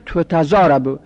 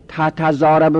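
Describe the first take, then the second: First: تتضاربو said as "tutazarabu"; passive vowelling. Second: Said in the usual way. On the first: Shown as a demonstration. Teacher showing the passive, first vowel changed to u. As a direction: say تتضاربو starting on tu.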